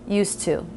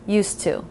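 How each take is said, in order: First: The final vowel is a full oo sound. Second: The same.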